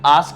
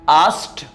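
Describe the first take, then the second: First: The word does not end in a t sound. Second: The word ends in a t sound. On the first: The speaker calls it wrong. "This should not be pronounced as asked" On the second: The speaker calls it right. "There is a t sound at the end"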